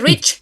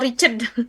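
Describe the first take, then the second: First: The ending is swallowed, with no extra syllable. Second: The ending is said as a separate extra syllable. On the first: The speaker calls it right. "Tapi rich, ditelan" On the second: The speaker calls it wrong. "jangan Richard dia, dibacanya no Richard"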